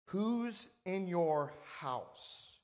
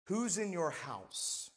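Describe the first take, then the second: First: "Who's... in your... house" stretched very slowly, starting raised and falling; very drawn-out "Who's in your house", with pauses; emphatic slow repeat. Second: "Who's in your house" said slowly and evenly, falling at the end; unhurried "Who's in your house", let it land; measured title announcement. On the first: Repeats sermon title for weight. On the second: Preacher announces sermon title. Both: Real, not acted.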